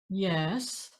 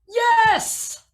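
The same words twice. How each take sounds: First: Uncertain, a small contour mid-voice. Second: Triumphant, starting high and coming down.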